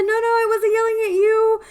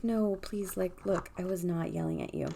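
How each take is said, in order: First: High, loud insistent denial; retold loud protest. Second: Pleading reassurance. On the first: Telling the startled lady she was not yelling, loud. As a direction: call it out urgently to reassure. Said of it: "And I said". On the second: Retold or imitated. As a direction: gently insist you meant no harm. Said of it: "I was like".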